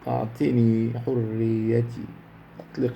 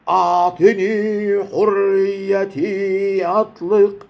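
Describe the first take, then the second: First: It is said quietly and calmly at low pitch. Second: It is said loudly at a very high pitch. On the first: The line is delivered as a gentle plea. "هي كانت عايزاها تبقى هاديه" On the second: The line is delivered as a powerful outcry. "اعلى درجه"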